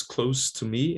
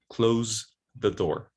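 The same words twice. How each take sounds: First: "close" in "close to me" with a hissed s; voiceless S. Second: "close" in "close the door" with a drawn-out buzzed z; voiced Z. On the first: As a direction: say adjective "close" ending in s. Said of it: "it's voiceless". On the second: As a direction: say verb "close" ending in z, slowly. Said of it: "it's voiced". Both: Shown as a demonstration.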